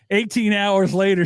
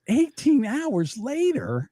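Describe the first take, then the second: First: Said in the usual way. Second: Slow, high disbelieving question; incredulous. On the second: Real, not acted. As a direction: repeat it in disbelief. Disbelieving repeat of story.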